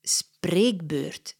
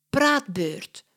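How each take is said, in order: First: Spreekbeurt said as the correct word, firm and plain. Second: Put-on praatbeurt said as a childlike mistake for spreekbeurt; wrong word. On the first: Acted. Mia corrects little Katja, firm. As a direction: correct her with Spreekbeurt, matter-of-fact. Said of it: "zegt Mia". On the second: Katja names the school talk wrongly, innocent.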